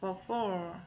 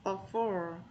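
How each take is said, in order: The two takes are said the same way.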